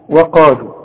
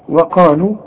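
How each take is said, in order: Both takes have the same delivery.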